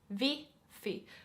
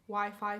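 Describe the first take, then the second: First: The word starts with a V sound. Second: The word starts with a W sound. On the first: "they pronounce the W more as a V" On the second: "while you can say Wi-Fi"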